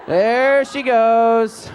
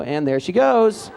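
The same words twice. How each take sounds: First: There she goes, stretched out long and a bit louder; slow teasing drawl. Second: Said in the usual way. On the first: Pretend. Director teasing a student over her wrong-side drill clip, slow and drawn out. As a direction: drag it out to tease her. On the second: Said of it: "here we go".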